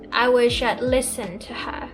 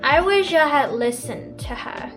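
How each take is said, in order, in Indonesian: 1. 'I had' disingkat menjadi 'I'd'. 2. Kata 'I had' diucapkan penuh.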